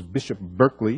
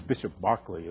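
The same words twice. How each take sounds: First: Berkeley said as BURK-lee; California pronunciation. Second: Berkeley said as BARK-lee, softly; corrected British pronunciation. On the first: Physicist recalling the philosopher's name as he'd thought it, Berkeley as BURK-lee. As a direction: say Berkeley the American way, first syllable BURK. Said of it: "that was a, uh, California, uh, version of it". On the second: Physicist checking the name with his audience, Berkeley softly as BARK-lee. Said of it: "It's Bishop Berkeley, isn't it?". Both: Shown as a demonstration.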